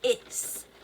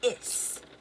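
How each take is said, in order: First: The word ends with a hissing S sound. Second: The same.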